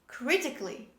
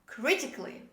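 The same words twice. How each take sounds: No difference in how they are said.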